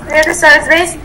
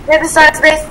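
No difference in how they are said.

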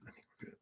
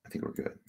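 First: Breathy whispered relief; hushed whisper to himself. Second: Low, barely voiced check; softly unsure murmur; muttered to himself. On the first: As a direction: whisper it almost silently. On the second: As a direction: mumble it while checking the screen. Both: Real, not acted.

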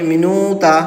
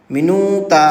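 No difference in how they are said.

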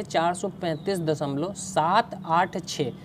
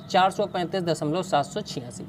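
First: सात आठ छः read one digit at a time after the point; correct digit reading. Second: सात सौ छियासी read as one whole number after the point; wrong way to read. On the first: Teacher reading the decimal correctly for students, digit by digit. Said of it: "इसे हम ऐसे पढ़ेंगे". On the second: Teacher showing students the wrong reading, सात सौ छियासी as one number. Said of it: "इस तरह से नहीं पढ़ेंगे". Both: Shown as a demonstration.

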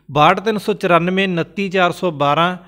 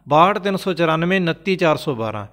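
No difference in how they are said.

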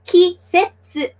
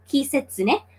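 First: KISETSU slowly, broken into ki-set-su; syllable by syllable. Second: Said in the usual way. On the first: Shown as a demonstration. Teacher sounding out the season word for newcomers, syllable by syllable. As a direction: sound out "Kisetsu" in three separate, higher beats. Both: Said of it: "speaks through syllables".

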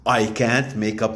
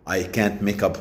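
Both takes have the same delivery.

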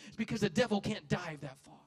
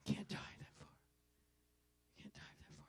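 First: Loud preached punchline; preached shout. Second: Hushed whispered repeat; whispered echo. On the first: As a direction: shout it to the church. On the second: Whispered echo after shouting. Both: Real, not acted.

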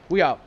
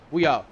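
The two takes are said the same way.

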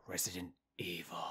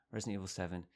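First: Whispered title, spooky hush. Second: Said in the usual way. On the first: Shown as a demonstration. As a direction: hush the name like a secret. Announcing the game title.

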